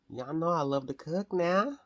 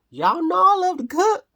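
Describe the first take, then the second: First: Said in the usual way. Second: High, loud sing-song yell; playful shout. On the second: Pretend. Telling viewers she loves cooking, playful high shout. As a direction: belt it out to the whole room.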